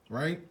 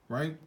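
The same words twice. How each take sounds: The two takes are said the same way.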